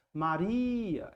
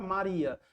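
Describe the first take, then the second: First: Maria with a long, drawn-out RI; stress on RI. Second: Said in the usual way. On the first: Shown as a demonstration. Teacher showing students the strongest syllable, Maria with RI held long. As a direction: call out Maria slowly, stretching the stressed RI. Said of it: "é o ri". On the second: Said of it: "Eu posso proferir a palavra Maria".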